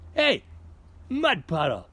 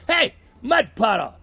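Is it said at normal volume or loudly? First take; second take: normal volume; loudly. First: It is called out at normal volume. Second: It is yelled much more loudly.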